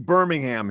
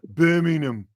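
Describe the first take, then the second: First: It is said with an American pronunciation. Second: It is said with an English pronunciation. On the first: "they don't say Birmingham here though" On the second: "They go Birmingham"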